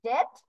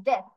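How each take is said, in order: First: DEATH said as "dead", rising, with a firm final d; hard d ending. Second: DEATH falling, with a soft th at the end. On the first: Teacher contrasting two words for students, DEATH with hard d ending. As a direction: close DEATH on a hard d instead of th. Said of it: "in this one you have to pronounce". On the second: Teacher contrasting two words for students, DEATH with soft th ending. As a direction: let DEATH end on a light th, not a d. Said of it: "the pronunciation of this one is". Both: Shown as a demonstration.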